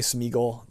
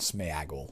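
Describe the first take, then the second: First: The first vowel sounds like a plain 'ee'. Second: The first vowel sounds like an accented 'é'. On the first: This is how many people say it. The speaker calls it wrong. "I know a lot of people say Smeagol" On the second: This follows the accent mark written in the book. The speaker calls it right. "The proper pronunciation, based phonetically on what they've written"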